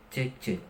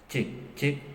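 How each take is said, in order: First: The voice sounds dry, without added reverb. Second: The voice sounds with reverb added to it. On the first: "Di sini vokal saya sudah terdengar ya" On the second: "channel satunya kita naikkan saja"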